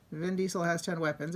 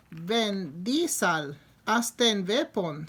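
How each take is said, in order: First: Said in the usual way. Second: "Ven Diesel, asten weapon" run together slowly in a jokey Canadian accent; mock Canadian accent. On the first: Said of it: "If you say that with kind of an accent". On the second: Shown as a demonstration. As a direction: blur the words into the verb chant, slowly. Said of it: "say that with kind of an accent".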